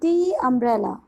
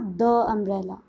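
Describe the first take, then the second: First: 'The' is said with a long 'ee' vowel. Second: 'The' is said with a short 'uh' vowel. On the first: The speaker calls it right. "It is दी umbrella" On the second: The speaker calls it wrong. "It is not द umbrella"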